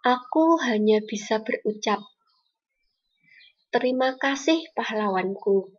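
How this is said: Clear pauses separate the phrases. The speaker calls it right. "setelah diberi tanda jeda, pembacaannya akan lebih indah lagi"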